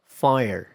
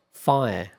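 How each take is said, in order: First: American "Fire" with the R. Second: British "fire", no R. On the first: Teacher contrasting American "Fire" with the R. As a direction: keep the R in "Fire". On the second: Teacher contrasting British "fire" without R. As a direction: drop the R in "fire". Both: Shown as a demonstration.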